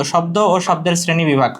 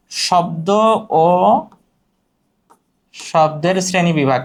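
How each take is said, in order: First: Said in the usual way. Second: Drawn-out opening, pause before the rest; slow dictation. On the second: Shown as a demonstration. Topic repeated as dictation. (থেমে থেমে ধীরে বলা)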